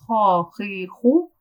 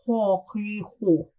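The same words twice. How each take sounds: First: "Ha, he, ho" from the throat with lips relaxed; lips not rounded. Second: "ha, he, ho" with lips rounded forward; lips rolled. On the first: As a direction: keep the lips flat on "Ha, he, ho". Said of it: "without rolling the lips". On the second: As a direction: roll the lips up on "ha, he, ho". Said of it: "And with rolling the lips". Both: Shown as a demonstration.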